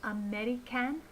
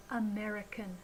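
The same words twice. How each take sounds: First: "American" as a-meh-ree-CAN, left rising; over-careful "American", no schwa at the end; unreduced syllables. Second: "American" as uh-MER-uh-kun, falling; natural "American", only "mer" stressed; reduced with schwa. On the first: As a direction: say "American" with a full short-a in "can". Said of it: "Listen again". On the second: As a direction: let the last syllable of "American" shrink to "kun". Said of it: "we should say". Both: Shown as a demonstration.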